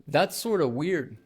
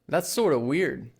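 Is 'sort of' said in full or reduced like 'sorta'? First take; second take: reduced; reduced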